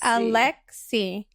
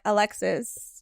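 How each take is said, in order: First: The name ends without an s sound. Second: The name ends with an s sound. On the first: The speaker calls it right. "It's Alexi" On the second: The speaker calls it wrong. "it was like Alexis, Alexis, and I'm like, no, that's not"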